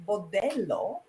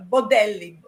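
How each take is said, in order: First: "bordello" ending in -oh; mispronunciation demo. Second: "bodelli" ending in a clear -ee; correct pronunciation. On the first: Warning friends about the brothel word, "bordello" ending in -oh. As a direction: say "bordello" with stressed DEL and final -oh. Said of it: "if you don't pronounce it right". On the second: Teaching friends the Italian word for guts, careful "bodelli" ending in -ee. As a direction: say "bodelli" with stressed DEL and final -ee. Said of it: "And you gotta say". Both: Shown as a demonstration.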